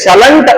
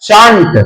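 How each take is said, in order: First: It is said as two syllables, 'shal-ent'. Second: It is said as one syllable, 'shant'. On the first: The speaker calls it wrong. "ಶಲಂಟ್ ಅನ್ನಬಾರದು" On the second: The speaker calls it right. "ಅದರ ಉಚ್ಚಾರ ಶಾಂಟ್"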